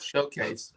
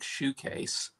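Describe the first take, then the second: First: The first syllable sounds like 'show'. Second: The first syllable sounds like 'shoe'. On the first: The speaker calls it right. "corrected myself" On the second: The speaker calls it wrong. "mispronounce your name"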